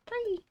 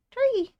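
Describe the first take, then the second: First: Put-on high squeaky baby voice, much softer; a tiny echo of its own call; quiet high baby creature; soft baby cry. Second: Put-on high squeaky baby creature yelling its name; loud high baby call; baby cry. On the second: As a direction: squeal it out like a tiny newborn.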